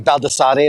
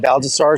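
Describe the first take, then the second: First: The name is said with a non-American pronunciation. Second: The name is said with an American pronunciation. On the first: This is how the speaker's group prefers to say it. "as we really like to say" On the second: This is how the name's owner says it. "he doesn't pronounce it that way because he's American"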